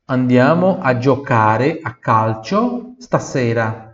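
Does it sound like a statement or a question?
statement. It is said with a flat statement tune.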